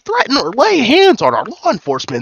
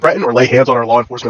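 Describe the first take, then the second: First: It is read in a timid, nerdy voice. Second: It is read in a tough, menacing voice. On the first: The speaker calls it right. "this guy's like a nerd" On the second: The speaker calls it wrong. "I think I read that with the wrong voice"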